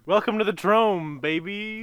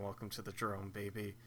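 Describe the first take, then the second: First: Hype announcer. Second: Low, soft imitation; quiet flat repeat. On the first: Pretend. Hype catchphrase. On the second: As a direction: murmur the catchphrase back. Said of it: "Andy saying".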